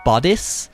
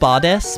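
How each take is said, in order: First: The word does not end like goddess. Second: The word ends like the word goddess. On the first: The speaker calls it right. "it's actually bodice" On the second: The speaker calls it wrong. "I say it as if I'm saying the word goddess"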